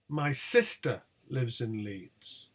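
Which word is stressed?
sister. The word sister carries the main stress. It is the sister, not the mother, who lives there. "not my mother"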